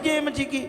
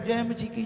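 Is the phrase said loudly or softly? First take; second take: loudly; softly. First: It is said loudly and with strong energy. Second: It is said softly and without energy. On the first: The speaker calls it right. "जय मसीह की होती है" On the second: The speaker calls it wrong. "जय ऐसे थोड़ी होती"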